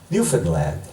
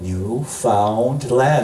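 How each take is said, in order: First: The middle syllable is reduced and run together. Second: Each part is said fully, as it is spelled. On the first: This is how the locals say the name. "That's how they pronounce it" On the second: This follows the written spelling of the name. "but it's spelled Newfoundland"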